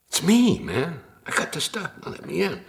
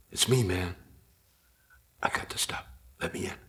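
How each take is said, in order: First: High, dopey stoner voice; whiny stoner begging at the door; dumb stoner voice. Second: Hushed lazy stoner mumble. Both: Retold or imitated. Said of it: "My dumb stoner voice".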